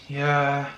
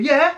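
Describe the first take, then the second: First: The word sounds gloomy and downbeat. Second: The word sounds cheerful and upbeat. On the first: The speaker does not want to do it. "that's a depressing, like the tone's totally different" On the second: The speaker genuinely agrees. "that is like a upbeat yeah"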